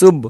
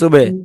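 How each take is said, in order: First: The final b stops without a bounce. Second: The final b is released with a bounce. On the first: The speaker calls it wrong. "আর যদি এখানে এরকম বলতাম সিন বা পেশ সুব" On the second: The speaker calls it right. "আমি বলেছি সিন বা পেশ সুবে"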